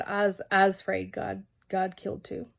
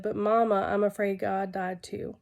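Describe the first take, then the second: First: Slow, lightly voiced Southern little girl; a hint of a scared little Southern girl's drawl; slow Southern child's drawl, gently imitated. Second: Said in the usual way. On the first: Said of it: "in her little southern drawl". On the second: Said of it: "well, in her little southern drawl".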